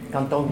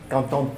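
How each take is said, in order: Both takes have the same delivery.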